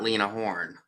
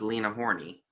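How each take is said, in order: First: The surname ends without any added vowel. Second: The surname ends with an added 'ee' sound. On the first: The speaker calls it right. "not Lena Horne" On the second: The speaker calls it wrong. "I thought it was Lena Horney"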